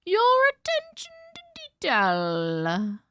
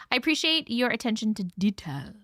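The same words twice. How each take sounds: First: High, slow, sing-song your attention to detail; hammed-up high sing-song compliment; mock posh praise. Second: Said in the usual way. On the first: Shown as a demonstration. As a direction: drawl it out with exaggerated high praise.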